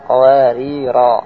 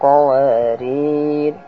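First: The word ends with a long a vowel. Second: The word ends with an r sound. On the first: The reader stops on the first occurrence. "Kalau mau berhenti di pertama, ... cara membacanya adalah qawarira" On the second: The reader stops on the second occurrence. "kalau berhenti kedua qawarir"

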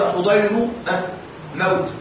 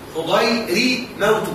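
First: The r is followed by an a vowel. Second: The r is followed by an i vowel. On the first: The speaker calls it wrong. "وليس" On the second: The speaker calls it right. "فالصواب الكسر"

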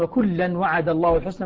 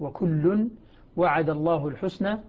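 First: The first word ends with an -an sound. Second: The first word ends with a -un sound. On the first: The word is a fronted object. "مفعول به مقدم" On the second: The word is the subject of the sentence. "يقرأها ابن عامر وكل على الرفع"

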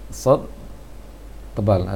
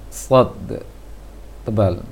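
No difference in how they are said.

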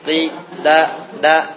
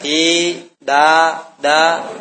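First: Each vowel is kept short. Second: Each vowel is drawn out long. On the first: The speaker calls it right. "Ketika satu harokat" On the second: The speaker calls it wrong.

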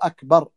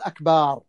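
First: The vowel after the b is kept short. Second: The vowel after the b is drawn out long. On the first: It means greater. The speaker calls it right. "يقطع الباء بدون مد" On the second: It becomes a word meaning drums. The speaker calls it wrong. "لا يقول أكبر، فإن أكبر هذا غلط"

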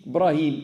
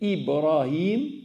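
First: The name begins without an 'i' sound. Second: The name begins with an 'i' sound. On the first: The speaker calls it wrong. "ils enlèvent le i" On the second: The speaker calls it right. "au lieu de dire Ibrahim"

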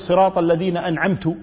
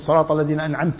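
First: The verb ends with a 'u' vowel. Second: The verb ends with an 'a' vowel. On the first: The speaker credits the blessing to himself. The speaker calls it wrong. "وينسب الإنعام لنفسه" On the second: The blessing is credited to God. The speaker calls it right. "أنعمت أنت يا رب"

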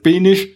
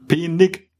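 First: The word ends with an sch sound. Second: The word ends with a hard g sound. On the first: "da die Sachsen aber alles Penisch aussprechen" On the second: "Penig mit G hinten"

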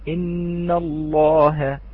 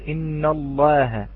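First: The lam in Allah is given full heavy emphasis. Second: The lam in Allah is given lighter emphasis. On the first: The speaker calls it right. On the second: The speaker calls it wrong.

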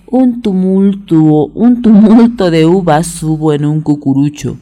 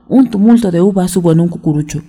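First: It is said at a moderate, unhurried pace. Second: It is said at the quickest pace.

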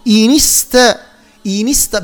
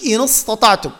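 First: The n is linked with an i vowel. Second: The n is held with no following vowel. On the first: The speaker calls it right. "فبالتالي تميل إلى الكسرة، فنقول إن استطعتم" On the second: The speaker calls it wrong. "باش ما نقولش إن استطعتم"

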